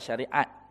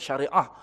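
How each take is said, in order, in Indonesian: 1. Kata itu berakhir dengan bunyi t. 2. Kata itu berakhir dengan bunyi h lembut. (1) "bukan syariat" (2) "Sepatutnya syariah"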